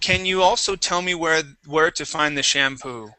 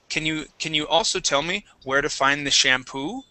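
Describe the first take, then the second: First: The voice falls at the end. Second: The voice rises at the end. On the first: The speaker calls it wrong. "so your voice went down" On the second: The speaker calls it right. "So my voice goes do"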